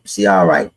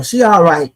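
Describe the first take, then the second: First: Much lower, deep mock voice. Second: Said in the usual way. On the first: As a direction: drop way down low for it. Repeats the phrase in two voices.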